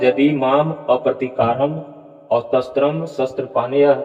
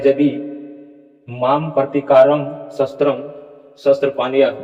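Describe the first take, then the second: First: The words are joined with linking sounds between them. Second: The words are said separately, without linking sounds. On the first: The speaker calls it right. "लेकिन यहाँ उच्चारण में य आएगा, और ये स्वर संधि से है।" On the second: The speaker calls it wrong. "ऐसा उच्चारण बिल्कुल नहीं होगा।"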